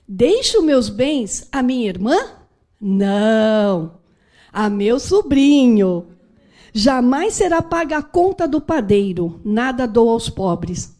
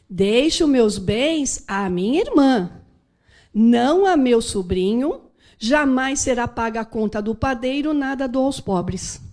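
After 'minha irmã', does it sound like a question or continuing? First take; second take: question; continuing. First: 'Minha irmã' is asked as a question, then a pause. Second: 'Minha irmã' flows straight into 'não a meu sobrinho'.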